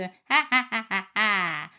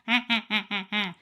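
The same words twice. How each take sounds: First: A bright, pinched, witch-like twang sound. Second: A sound pushed through the nose, nasal. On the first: The speaker calls it right. "ce son de sorcière" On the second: The speaker calls it wrong. "c'est pas forcément nasal"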